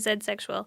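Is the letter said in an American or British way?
British. The letter is said the British way, zed.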